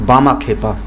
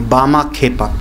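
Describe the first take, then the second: The two takes are said the same way.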